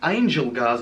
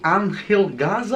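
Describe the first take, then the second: First: The name is said with a plain English pronunciation. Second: The name is said with a Mexican Spanish pronunciation. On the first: "I mean" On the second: "I was just trying to do the Mexican pronunciation"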